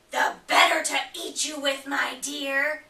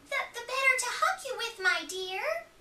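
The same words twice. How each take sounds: First: Louder, back down from the high act; menacing wolf. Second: Quick, much higher sweet granny voice; fake granny voice. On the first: Acted. Wolf revealing himself to Red, louder and menacing. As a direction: let the real wolf out before the pounce. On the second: Wolf in Granny's bed still pretending, high and quick. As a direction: keep up the high granny act.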